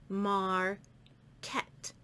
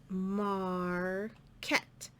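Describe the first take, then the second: The two takes are said the same way.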